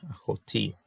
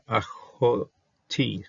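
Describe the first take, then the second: First: Said in the usual way. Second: Slowly drawn-out syllables of achoti; slow sounding out. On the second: Shown as a demonstration.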